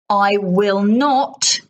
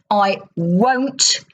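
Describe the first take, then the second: First: Each word is said fully and separately. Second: The words are shortened and run together.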